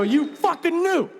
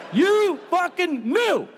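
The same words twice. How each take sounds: First: High, strained accusing whine; mock furious accusation at him; accusing fan. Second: High, drawn-out furious accusation; slower accusing fan. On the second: Pretend. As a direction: stretch it out, hammed-up outrage.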